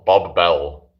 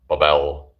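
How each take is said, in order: First: It is said as two separate names. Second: It is said as one joined word. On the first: "Is it supposed to be Bob Bell, like it's two names" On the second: "Not Bobel"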